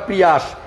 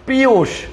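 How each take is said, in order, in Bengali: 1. নামটি উচ্চারণ করা হয় pree-yas। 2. নামটি উচ্চারণ করা হয় pree-oos। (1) "আমরা সবাই ভুল বলি।" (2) "ওটার নাম তো প্রিয়াস না"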